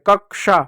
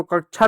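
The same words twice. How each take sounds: First: कक्षा said as "kak-sha", with k plus sh; correct pronunciation. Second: कक्षा said as "kachha", with chh for ksh; wrong pronunciation. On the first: Teacher correcting how pupils read the word, carefully pronounced. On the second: Teacher showing pupils the reading to avoid, mispronounced. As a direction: say कक्षा with a chh sound, "ka-chha". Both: Shown as a demonstration. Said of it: "इसको कक्षा नहीं पढ़ते".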